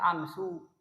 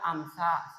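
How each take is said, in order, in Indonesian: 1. Kata itu diakhiri dengan vokal u. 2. Kata itu diakhiri dengan vokal a. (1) "Tidak boleh dibaca amsu" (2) "tidak boleh dibaca amsa"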